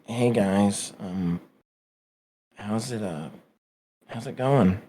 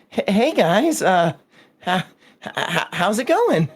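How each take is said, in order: First: It is said sadly and softly, downcast. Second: It is said nervously, stammering and hesitant.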